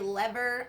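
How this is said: It is said the way most Americans say it.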